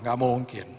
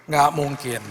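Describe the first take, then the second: First: Said in the usual way. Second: "Nggak mungkin" louder, pressed; emphatic repeat. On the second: Real, not acted. Preacher insisting to the congregation, louder and firmer. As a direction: hammer home the impossibility.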